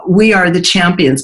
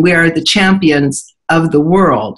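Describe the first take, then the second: First: Said in the usual way. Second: World drawn out slowly at the end; slow, with "world." landing as a falling close; stress on world. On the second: Shown as a demonstration. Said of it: "people went back and said".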